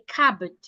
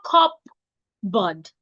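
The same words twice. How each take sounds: First: No P sound is pronounced in the word. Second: A P sound is pronounced in the word. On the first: The speaker calls it right. "The P should not be heard" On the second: The speaker calls it wrong. "It's not cupboard"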